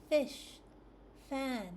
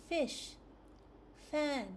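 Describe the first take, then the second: Both takes have the same delivery.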